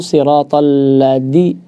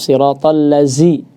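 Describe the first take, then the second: First: The consonant is a hard d sound. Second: The consonant is a buzzing z sound. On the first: "jadi dal" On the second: "sebagian ada yang baca dengan zai"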